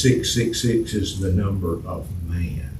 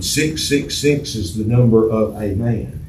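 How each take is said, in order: First: Said in the usual way. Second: "a man" with A said as a full "ay"; article A stressed. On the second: Shown as a demonstration. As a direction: make the article A stand out before man. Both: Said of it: "Doesn't have the article in it".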